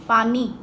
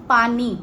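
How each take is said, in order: Both takes have the same delivery.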